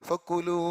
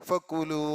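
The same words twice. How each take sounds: The two takes are said the same way.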